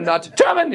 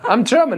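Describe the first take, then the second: First: GERMAN barked high and hard; that kind of German. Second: Said in the usual way. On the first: Shown as a demonstration. Comic disowning the bad kind of German, harsh mock bark on German. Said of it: "I'm not that kind of German". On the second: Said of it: "I'm, like, a nice German".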